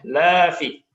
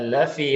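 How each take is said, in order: First: The vowel after the l is long. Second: The vowel after the l is short. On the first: Humans are not at a loss. The speaker calls it wrong. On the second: Humans are truly at a loss. The speaker calls it right.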